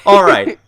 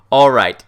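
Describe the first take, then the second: First: Said in the usual way. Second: Unvoiced whispered all right. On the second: Real, not acted. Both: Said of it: "whispered repeat".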